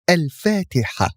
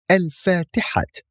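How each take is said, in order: First: The word ends with an h sound. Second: The word ends with a t sound. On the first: This is how the word is read at a phrase end. "but we read it al-fatiha. See? Ha instead of ta" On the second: This is how the word is written. "So we write al-fatihat"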